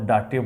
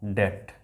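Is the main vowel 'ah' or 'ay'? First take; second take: ah; ay. First: The vowel is 'ah' with a final 'eh'. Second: The vowel is 'ay' with no final vowel. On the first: The speaker calls it wrong. "आप डाटे बोलेंगे ... लेकिन वो नहीं करना है" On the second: The speaker calls it right. "उसके बाद एट"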